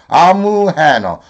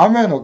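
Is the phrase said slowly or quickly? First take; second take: slowly; quickly. First: It is said slowly, with syllables kept apart. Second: It is said quickly, squeezed into one chunk.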